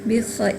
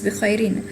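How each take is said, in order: First: The word ends sharply on the 'r' sound. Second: The word ends with an added 'in' sound. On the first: This is the form used when pausing at the end. "if we stop here" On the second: This is the full form inside a sentence. "Originally it's"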